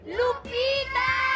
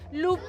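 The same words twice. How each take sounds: First: The name is called much more loudly. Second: The name is called fairly softly.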